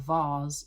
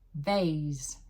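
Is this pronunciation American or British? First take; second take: British; American. First: It is said with a British accent. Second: It is said with an American accent. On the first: "in English" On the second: "in American"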